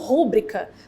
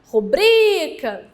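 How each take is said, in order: First: The stress is on the first syllable. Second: The stress is on the second syllable. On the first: The speaker calls it wrong. "muita gente pronuncia essa palavra como rúbrica" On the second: The speaker calls it right. "também uma paroxítona"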